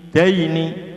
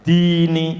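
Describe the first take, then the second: First: "daini" with short dai closing on i; bacaan pendek. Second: "Dini" with long i, high and loud; di panjang. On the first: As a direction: glide straight through DAI in "daini". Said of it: "dibaca pendek". ("daini" dengan dai pendek) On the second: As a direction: hold the first i in "Dini". ("Dini" dibaca di panjang) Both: Shown as a demonstration.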